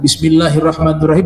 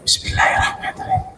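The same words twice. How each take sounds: First: It is recited aloud, clearly voiced. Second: It is recited quietly, almost silently.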